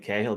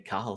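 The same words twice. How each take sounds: First: It is said the northern Irish way. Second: It is said the southern Irish way.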